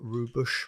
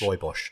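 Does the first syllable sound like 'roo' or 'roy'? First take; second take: roo; roy. First: The first syllable sounds like 'roo'. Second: The first syllable sounds like 'roy'. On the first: "I think I'd say Rue Bosch" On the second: "He said Roy Bosch several times"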